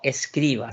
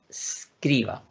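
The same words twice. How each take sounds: First: An extra e sound comes before the s. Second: The word starts directly with the s sound. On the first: The speaker calls it wrong. "el verbo no escriba" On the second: The speaker calls it right. "sino que escriba"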